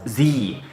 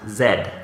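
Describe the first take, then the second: First: The letter is given its American name. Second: The letter is given its Canadian name. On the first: "we say Dragon Ball Z" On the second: "in Canada we pronounce that letter as Z"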